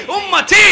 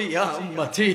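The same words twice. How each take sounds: First: Very high, loud call; imitated cry. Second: Said in the usual way. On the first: Preacher voices the Prophet calling his people, imitated cry. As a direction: peak of a mounting plea. Last plea cried out.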